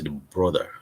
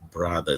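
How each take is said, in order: First: It is said with a Nigerian English accent. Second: It is said with a standard English accent.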